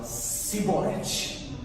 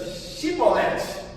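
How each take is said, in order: First: The word begins with a plain s sound. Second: The word begins with an sh sound. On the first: The speaker gives away that he belongs to the enemy tribe. The speaker calls it wrong. "o C H para eles era dito com som de S" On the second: The speaker is not from the tribe being tested. The speaker calls it right. "o C H era dito com som de X"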